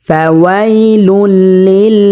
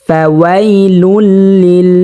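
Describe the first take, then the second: The two takes are said the same way.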